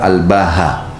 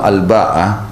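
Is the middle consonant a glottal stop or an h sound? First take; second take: h sound; glottal stop. First: The middle consonant is an h sound. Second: The middle consonant is a glottal stop. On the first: "dengan huruf ha sebagai pengganti huruf hamzah" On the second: "dengan hamzah dan tak ta'nits, ya, mamdud"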